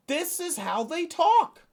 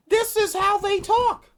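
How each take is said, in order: First: Higher, incredulous exasperation; exasperated. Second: Much higher and louder incredulous cry; near-shout of disbelief; exasperated outburst. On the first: Complaining about how Trump officials talk, exasperated. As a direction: throw up your hands at it. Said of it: "that's how they talk now". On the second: Venting to viewers about how officials talk, loud exasperated cry. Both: Real, not acted.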